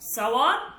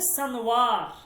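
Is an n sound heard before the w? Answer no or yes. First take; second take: no; yes. First: The word is said without an n sound. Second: The word is said with an n sound.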